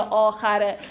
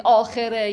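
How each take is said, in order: First: Second آخره said "aakhare", with a after the kh; a pronunciation. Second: First آخره said "aakhere", with e after the kh; e pronunciation. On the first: Teacher telling students not to fuss over either reading, a pronunciation. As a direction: pronounce آخره as aa-kha-re. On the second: Teacher telling students not to fuss over either reading, e pronunciation. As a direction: pronounce آخره as aa-khe-re. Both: Shown as a demonstration. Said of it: "دیگه رو تلفظش خیلی گیر ندید".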